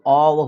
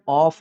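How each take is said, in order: First: The word ends with a v sound. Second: The word ends with an f sound. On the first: The speaker calls it right. "इसका उच्चारण जो है वो ऑव होता है" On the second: The speaker calls it wrong. "ऑफ बोलते हैं, ये गलत है"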